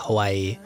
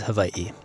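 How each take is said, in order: First: It is said the common English way. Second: It is said the traditional Hawaiian way. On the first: This is how most people say it. The speaker calls it wrong. "It's very common for people to say Hawaii" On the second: This is the proper pronunciation. The speaker calls it right. "proper pronunciation is Hawaii"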